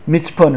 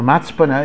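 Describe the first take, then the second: First: The first vowel is an 'i' sound. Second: The first vowel is an 'a' sound. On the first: The speaker calls it wrong. "This is the problem when I read without vowels, I don't always get it right" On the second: The speaker calls it right. "They pronounce it matzpun"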